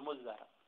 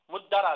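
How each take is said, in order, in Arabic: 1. الأصوات الوسطى هي dh مضعّفة. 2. الأصوات الوسطى هي d مضعّفة. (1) "أو أن تدغم التاء بالدال فتقول مزرع" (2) "بإبدال التاء والزال معا دالا"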